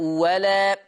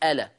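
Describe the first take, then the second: First: The word begins with a w sound. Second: The word begins with a glottal stop. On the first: The word is joined to the word before it. "ورش يبدل التانية وهو مفتوح يقول إيه؟" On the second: The reading starts from this word. "لما تبتدي بيها تحقق الهمزة تاني تقول ألا"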